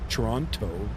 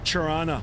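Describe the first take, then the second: First: The word is said with every syllable full. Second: The word is said in a clipped, shortened way. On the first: This is how most outsiders say the city's name. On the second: This is how a local says the city's name.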